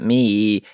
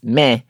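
First: The word ends in a long 'ee' vowel. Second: The word ends in an open 'eh' vowel. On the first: The speaker calls it wrong. "It's not Me" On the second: The speaker calls it right. "It's Meh. And you got to say Meh"

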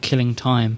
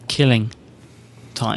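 First: The stress falls on the word time. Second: The stress falls on the word killing. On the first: Time is being wasted. The speaker calls it wrong. "I'm stressing the syllables wrong there" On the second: It is time for killing. The speaker calls it right. "It should be killing time"

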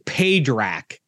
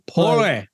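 First: The name has two clear syllables ending in k. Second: The name is run together into one short syllable. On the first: This is how the written name looks. The speaker calls it wrong. "it looks like it's Padrak" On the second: This is how the name is said in the film. The speaker calls it right. "Is how they say his name in the movie"

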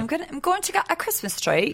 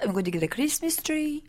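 First: It is spoken in a Cockney-sounding accent. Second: It is spoken in a French-sounding accent. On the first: The speaker calls it right. "That's a little cockney" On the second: The speaker calls it wrong. "That's not a terrible French accent"

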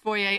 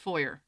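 First: The word is said the French-style way. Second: The word is said the plain English way. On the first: The listeners are French or the setting is fancy. "If your audience is either French or fancy, then it's foyer" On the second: The setting is ordinary. "Otherwise, you go with foyer"

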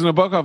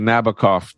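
First: The final syllable does not rhyme with cough. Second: The final syllable rhymes with cough. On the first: "It was [name] unless you're [name]" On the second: "you say Nabokov to make it rhyme with cough"

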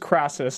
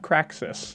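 First: The middle has a plain s sound. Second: The middle has a ks sound. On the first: The speaker calls it right. "says it's Marcus Crassus" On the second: The speaker calls it wrong. "not Craxus"

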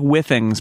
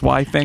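First: The first syllable sounds like the word 'with'. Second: The first syllable sounds like 'why', as in Wi-Fi. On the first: "It looks like Withings" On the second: "I thought it was like Wi-Fi things"

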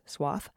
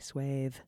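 First: The vowel sounds like the one in moth. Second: The vowel sounds like the one in bathe. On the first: The speaker calls it wrong. "The American interpretation sounds dry and requires some complex tongue-related gymnastics" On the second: The speaker calls it right. "the original not only sounds nicer, but it's way easier to say"

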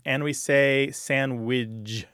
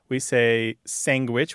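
First: It ends in widge instead of witch. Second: It has a g sound after the n. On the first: "widge at the end instead of witch at the end" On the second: "which you point out"

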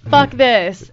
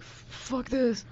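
First: It is said at a louder volume. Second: It is said at a quieter, normal volume.

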